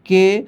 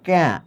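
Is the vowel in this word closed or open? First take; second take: closed; open. First: The vowel is closed, like 'e' in 'bed'. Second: The vowel is open, like 'a' in 'cat'. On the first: The speaker calls it right. "তোমাকে বলতে হবে কে" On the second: The speaker calls it wrong. "এটার উচ্চারণ তুমি এইভাবে ক্যা এভাবে বলতে পারবা না"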